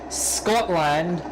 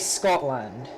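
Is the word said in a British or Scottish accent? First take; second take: Scottish; British. First: It is said in a Scottish accent. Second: It is said in a lighter British accent. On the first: "as the Scottish say" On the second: "as the British say"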